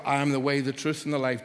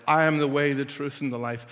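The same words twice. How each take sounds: First: Said in the usual way. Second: I pressed louder; stress on I. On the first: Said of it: "for example". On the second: Shown as a demonstration. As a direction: lean on I in I am the way. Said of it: "the stress is on the I am".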